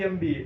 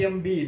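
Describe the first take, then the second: No difference in how they are said.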